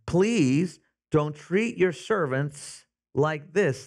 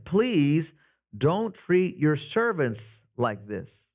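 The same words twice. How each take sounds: First: Slow, pleading plea; drawn-out mild beg to the master; begging. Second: Slow, mild pleading repeat. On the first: Foremen begging Pharaoh for mercy, slow mild pleading. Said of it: "they begged". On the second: Preacher rereading the foremen's plea, slow pleading. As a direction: stretch each word as a plea. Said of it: "they pleaded with him". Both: Retold or imitated.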